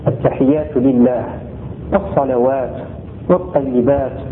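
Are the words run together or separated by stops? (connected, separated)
separated. Words separated by stops with final vowels dropped. "quand on s'arrête, on va pas prononcer les voyelles de ces dernières lettres"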